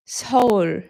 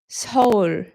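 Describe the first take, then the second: First: It is pronounced the Korean way. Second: The same.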